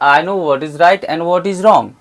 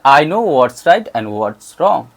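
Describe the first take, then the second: First: "What is" is said as two full words. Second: "What is" is shortened to "what's". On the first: "ऐसे बोलेंगे normal तो" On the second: "इसको short करेंगे तो ऐसे sound करेगा"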